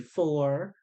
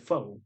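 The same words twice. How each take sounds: First: The word ends with an r sound. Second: The word ends without r, like foe. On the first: This is not how people from the neighborhood say it. "We don't say four" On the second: This is how people from the neighborhood say it. "How we hood people in the hood say four"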